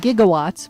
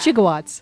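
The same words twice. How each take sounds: First: The word has its usual standard pronunciation. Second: The word has the film character's odd pronunciation. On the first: The speaker calls it right. "It's really gigawatts" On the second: The speaker calls it wrong. "but he calls them"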